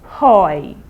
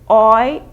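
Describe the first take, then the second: First: The word begins with an audible h sound. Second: The word begins directly with the o vowel. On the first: The speaker calls it wrong. "the H is silent in Spanish, so you don't say hoy" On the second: The speaker calls it right. "You start from the O"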